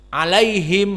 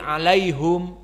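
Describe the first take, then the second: First: The last syllable has an i vowel. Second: The last syllable has a u vowel. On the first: This is the reading memorized since childhood. "alaihim menjadi alaihum" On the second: This is another accepted reading. "alaihim menjadi alaihum"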